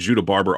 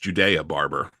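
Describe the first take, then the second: First: The first name is said with two syllables. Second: The first name is said with three syllables. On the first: The speaker calls it wrong. "we've been saying Judah Barber all day, all year long" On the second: The speaker calls it right. "I found out from Ken Anderson it's Judea Barber"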